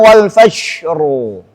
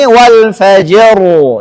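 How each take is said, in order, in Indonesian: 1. Bunyi j terdengar lembut, mirip sh. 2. Bunyi j itu keras, j bersuara.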